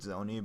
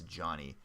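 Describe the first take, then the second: First: The name starts with a 'z' sound. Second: The name starts with a 'j' sound. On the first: This is how the spelling looks. The speaker calls it wrong. "it looks like Zoni" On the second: This is how the name is actually pronounced. The speaker calls it right. "apparently you pronounce this Johnny"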